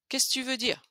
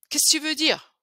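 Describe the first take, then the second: First: The word 'que' is dropped entirely. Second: The word 'que' is fully pronounced.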